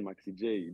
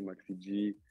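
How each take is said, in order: First: The J is said the American way. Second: The J is said the French way. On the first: "je le prononçais à, à l'américaine" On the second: "les gens, ils disaient"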